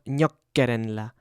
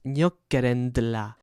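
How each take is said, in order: First: There is no d sound before the la. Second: A d sound comes before the la. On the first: The speaker calls it wrong. "it's not" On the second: The speaker calls it right.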